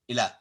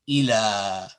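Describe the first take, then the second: First: The final vowel is short and clipped. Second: The final vowel is held for two counts. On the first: The speaker calls it wrong. "you wouldn't say" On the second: The speaker calls it right. "it lengthens the fatha two counts"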